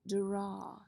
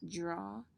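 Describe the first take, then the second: First: The first sound is a clear 'd' sound. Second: The first sound is close to a 'j' sound. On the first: "the right way to say it is draw, d" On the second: "It sounds a little like it should start with j when we say it"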